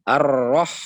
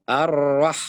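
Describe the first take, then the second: First: Ar-Rah with the ha kept heavy like the ro, louder; wrong heavy ha. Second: Ar-Rah with a heavy ro, then a flat light ha; correct flat ha. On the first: Teacher demonstrating the mistake. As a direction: keep the ha too heavy in Ar-Rah. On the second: Teacher showing students the right Ar-Rah. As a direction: drop back to a flat ha after the ro. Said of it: "ha kembali datar". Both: Shown as a demonstration.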